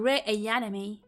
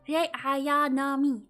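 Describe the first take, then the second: First: The A is said like 'ay', American style. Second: The A is said like an open 'ah'. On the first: The speaker calls it wrong. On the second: The speaker calls it right.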